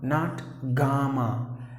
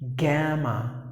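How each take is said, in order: First: The first vowel is an 'ah' sound. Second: The first vowel is an 'a' sound. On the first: The speaker calls it wrong. "Not ah" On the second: The speaker calls it right. "it's a, gamma. That's the way you have to pronounce the word"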